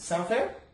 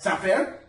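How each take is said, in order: First: The tone is calm, even and reasonable. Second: The tone is condescending and talking down. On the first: The terms are simply fair and expected. The speaker calls it right. "I'm just being a reasonable man" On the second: The listener is treated as stupid. The speaker calls it wrong. "Idiot? You see how that screams a little bit of a different message"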